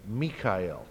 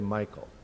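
First: It has three syllables, mee-ka-el. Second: It has two syllables, my-kul. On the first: This is the European way of saying the name. The speaker calls it right. "that's the usual European pronunciation of that name" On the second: This is the American way of saying the name. The speaker calls it wrong. "it's only Americans that mispronounce all these names. So we're the ones who say Michael"

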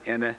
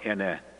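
First: The word is said on a mid tone. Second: The word is said on a low tone. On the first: It means madam. "with mid-tone, it's madam" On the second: It means the number four. "pronounce it with low tone"

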